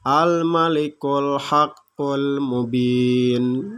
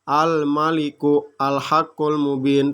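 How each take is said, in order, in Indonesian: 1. Kata-katanya tersambung dan 'a' pada 'al' dihilangkan. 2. Kata-katanya terpisah dan 'al' dibaca penuh.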